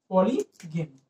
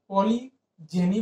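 First: The middle consonant is a hard g sound. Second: The middle consonant is a soft j sound. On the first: The speaker calls it wrong. "गलत pronunciation था" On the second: The speaker calls it right. "पॉलीजेनी ही बोलते हैं"

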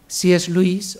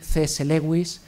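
First: The name is pronounced with English sounds. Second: The name is pronounced with Spanish sounds.

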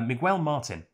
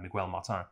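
First: The name is said in the speaker's own accent. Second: The name is said with a French-sounding accent. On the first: "I guess, in my accent" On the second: "I just realized I said it with a weird French accent"

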